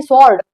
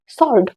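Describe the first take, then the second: First: Sword misread as "sword" with an audible w; wrong, w sounded. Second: Sword said as "sord"; silent w. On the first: Teacher quotes what many people wrongly say, w sounded in सॉल्ड. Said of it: "गलत है". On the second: Teacher gives learners the correct word, w silent in सॉल्ड. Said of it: "आपका डब्ल्यू silent है". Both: Shown as a demonstration.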